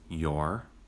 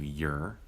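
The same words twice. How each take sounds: First: The word is said with its full vowel. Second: The word is said with a weak, reduced vowel.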